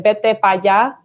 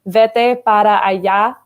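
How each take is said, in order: First: It is said shortened, in campesino Spanish. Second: It is said in full standard Spanish.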